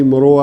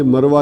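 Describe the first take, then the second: First: مروہ said mo-RO-a, rounded vowels; altered name. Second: مروہ said MAR-wa, two syllables; original name. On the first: Teacher quoting the altered name, مروہ as mo-ro-wa. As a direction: open مروہ out into mo-ro-wa. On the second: Teacher quoting the rejected name, مروہ as mar-wa. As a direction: keep مروہ to a plain mar-wa. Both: Shown as a demonstration. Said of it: "یہ مروہ نہیں".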